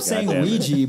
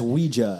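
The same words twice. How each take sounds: First: The word ends in an 'ee' sound. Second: The word ends in an 'ah' sound. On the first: The speaker calls it wrong. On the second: The speaker calls it right.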